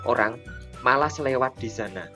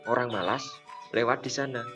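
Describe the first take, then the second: First: A pause comes after the word orang. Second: A pause comes after the word malas. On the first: People in general are reluctant to pass there. "Jika kita membacanya seperti ini" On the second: Only lazy people pass there. "jika kata itu dibaca seperti ini"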